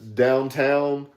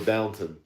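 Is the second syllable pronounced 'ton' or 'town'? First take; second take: town; ton. First: The second syllable has a full 'town' sound. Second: The second syllable is reduced to a 'ton' sound. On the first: "It's spelled downtown" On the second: "I heard people say Downton"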